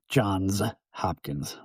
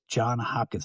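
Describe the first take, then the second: First: John is said with an s at the end. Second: John is said without an s at the end. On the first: The speaker calls it right. "more than one John" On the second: The speaker calls it wrong. "he's going to refer to it once again as John Hopkins"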